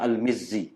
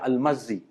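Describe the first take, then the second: First: The vowel after the M is an 'ee' sound. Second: The vowel after the M is an 'a' sound. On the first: The speaker calls it right. "sebenarnya Al-Mizzi" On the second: The speaker calls it wrong. "setengah tu dia baca Al-Mazzi"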